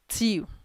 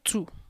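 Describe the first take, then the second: First: It does not sound like English 'two'. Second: It sounds like the English word 'two'. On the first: The speaker calls it right. "it's till" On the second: The speaker calls it wrong. "It's not two"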